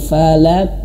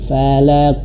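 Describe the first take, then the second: First: The final q echoes with a light, thin sound. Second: The final q echoes with a heavy, deep sound. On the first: The speaker calls it wrong. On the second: The speaker calls it right. "pantulan huruf qalqalah huruf qaf ini harus memantul betul-betul ke tebal"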